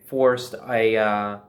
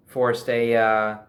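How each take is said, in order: Both takes have the same delivery.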